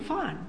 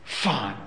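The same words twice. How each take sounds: First: The word sounds relaxed and content. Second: The word sounds reluctant and grudging. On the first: The person is doing well. "how are you feeling? I'm feeling fine" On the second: The person agrees unwillingly and resents it. "you tell your kid to go out and cut the lawn, and they say, fine"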